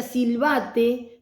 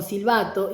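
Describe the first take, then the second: First: Silbate said ending in a clear e; wrong ending silbate. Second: Silbato said ending in a clear o; correct ending silbato. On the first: Teacher contrasts a child's silbate with the right word. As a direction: stress the final e of silbate. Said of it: "no era lo mismo que silbate". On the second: Teacher corrects herself to the right silbato. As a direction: land on the final o of silbato. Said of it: "digo, perdón". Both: Shown as a demonstration.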